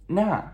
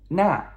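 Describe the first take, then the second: The two takes are said the same way.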